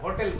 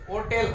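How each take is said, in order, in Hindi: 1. यह शब्द h ध्वनि से शुरू होता है। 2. यह शब्द h ध्वनि के बिना शुरू होता है। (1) "হোটেল বলি আমরা" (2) "উচ্চারণটা কিন্তু হোটেল হোটেল হয় না"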